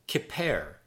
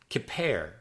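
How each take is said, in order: Both takes have the same delivery.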